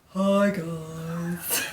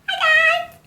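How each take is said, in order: First: It is said in her normal, lower voice. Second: It is said in a very high, squeaky voice.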